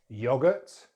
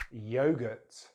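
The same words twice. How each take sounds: First: "Yogurt" as YOG-ut, short o; British "Yogurt" rhyming its start with dog; British pronunciation. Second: "yogurt" as YOH-gurt; American "yogurt" with long o; American pronunciation. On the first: Teacher contrasts accents, "Yogurt" as YOG-ut. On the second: Teacher contrasts accents, "yogurt" as YOH-gurt. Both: Shown as a demonstration. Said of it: "British English or American English".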